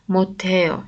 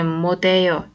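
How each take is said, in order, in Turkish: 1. Ortadaki ünsüz sert bir t sesidir. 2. Ortadaki ünsüz yumuşak bir d sesidir. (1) "moteo şeklinde okuyacağız onu" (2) "modeo değil"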